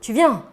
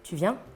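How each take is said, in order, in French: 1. Ça sonne comme un ordre ferme. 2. Ça sonne comme une question neutre et ouverte. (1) "Un ordre" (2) "une question neutre"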